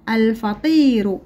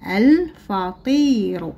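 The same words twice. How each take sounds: First: Said in the usual way. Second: الفطير stretched slowly; الفطير drawn out slowly. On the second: Shown as a demonstration. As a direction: read الفطير slowly for pupils to copy. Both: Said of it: "لدينا الكلمات نقرأها".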